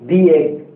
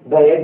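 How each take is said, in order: First: 'The' is said with a long 'thee' vowel. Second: 'The' is said with a short 'thuh' vowel. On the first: The speaker calls it right. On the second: The speaker calls it wrong. "த egg அப்படின்னா தப்பு"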